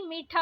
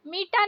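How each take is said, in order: First: मीठा with aspirated th; breath puff on t of मीठा; correct pronunciation. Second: मीठा with plain t, "meeta"; no puff on t of मीठा; wrong pronunciation. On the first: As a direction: say मीठा as "meetha". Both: Shown as a demonstration. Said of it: "मीठा नहीं".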